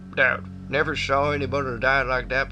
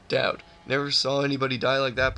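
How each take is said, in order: First: It is spoken in a put-on country accent. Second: It is spoken in a plain, normal voice. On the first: The speaker calls it wrong. "I don't like the country accent" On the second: The speaker calls it right. "We'll just do a normal voice for this guy"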